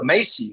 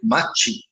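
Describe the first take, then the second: First: The surname is pronounced the English way. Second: The surname is pronounced the Italian way. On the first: This is how people in the United States say the name. "I heard people saying, no, Macy" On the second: This is how the name is said in Italy. "because that's how you say it in Italian"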